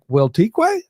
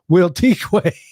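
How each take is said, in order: First: The voice rises at the end. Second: The voice falls at the end.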